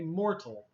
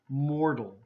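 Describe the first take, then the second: First: The middle consonant is a clear T sound. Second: The middle consonant is a soft D sound. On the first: "the book is telling us to have a T sound" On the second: "most people will have this T as a D sound"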